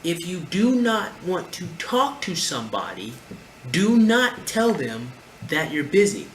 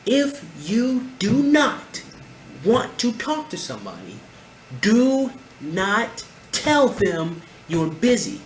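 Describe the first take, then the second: First: Slower, weighty "do not", "not" stressed; emphatic warning. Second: "do not" stretched very slow, higher and louder; last-time warning, each word hit hard; louder, higher emphatic repeat. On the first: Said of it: "Let me say this one more time". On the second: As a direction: spell out "If you do not" word by word, then "do not tell them you're busy" slowly and loud. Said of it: "One more time". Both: Shown as a demonstration.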